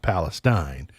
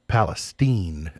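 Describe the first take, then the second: First: The name is said like the Middle East name. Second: The name is said unlike the Middle East name. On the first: It names the Middle East region. The speaker calls it wrong. "and not" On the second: It marks the town apart from the Middle East region. The speaker calls it right. "we don't want to be confused with the people in the Middle East, so we're going to insist we call we be called"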